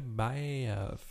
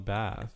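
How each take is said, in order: First: The vowel is drawn out into two syllables. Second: The vowel is short, in one syllable. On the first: The speaker calls it wrong. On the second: The speaker calls it right.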